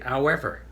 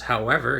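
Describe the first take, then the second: First: The word starts without its h sound. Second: The word starts with a clear h sound. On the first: This is how Newfoundlanders say it. "you don't pronounce the H" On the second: This is the ordinary way of saying it. "if it was however"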